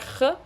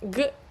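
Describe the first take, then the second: First: The G sound is said the Ukrainian-border regional way. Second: The G sound is said the standard Russian way. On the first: "podemos pronunciar G eh, en otra región, como esta que acabo de mencionar, cerca de Ucrania" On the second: "en vez de- del sonido G"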